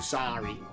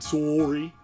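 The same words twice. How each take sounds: First: Said in an American accent. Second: Said in a Canadian accent.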